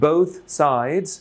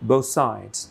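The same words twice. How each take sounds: First: The th sound is kept before the s. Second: The th sound merges into the s. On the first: "assimilation ছাড়া" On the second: "assimilation দিয়ে"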